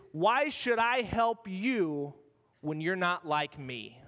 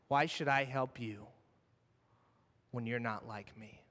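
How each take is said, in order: First: Slow, deliberate challenge, every word weighed; slow pointed question. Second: Quiet repeat. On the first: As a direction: lay the question out slowly, like a test. Preacher voices Jesus' challenge. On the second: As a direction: lower and softer, sinking away. Same question repeated, fading. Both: Acted.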